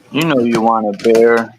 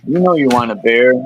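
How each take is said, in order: First: Coaxing craving voice, a touch put-on; lightly voiced temptation egging a friend on; tempting inner voice. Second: Coaxing craving voice, a touch put-on, pressing harder; tempting inner voice. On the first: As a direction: sweet-talk him toward a drink. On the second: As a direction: sell the drink once more.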